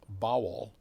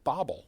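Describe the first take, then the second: First: The name has a w sound in the middle. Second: The name has a b sound in the middle. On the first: This is how the player's name was meant to be said. "it was pronounced Bowell" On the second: This is how other people commonly said the name. "people would pronounce it Bobble"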